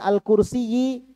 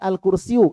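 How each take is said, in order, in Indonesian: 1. Kata ini berakhir dengan vokal i. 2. Kata ini berakhir dengan vokal u. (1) "jangan dibaca" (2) "harus dibaca"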